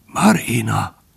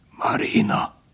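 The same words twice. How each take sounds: First: Weak call with some voice returning; straining. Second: Soft, effortful whisper; straining, weak. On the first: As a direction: manage to voice the name, with effort. (erőlködve, gyengén szólítva) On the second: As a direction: whisper the name with failing strength. (erőlködve, elhalón suttogva) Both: A narrator's reading. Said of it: "mondta erőlködve".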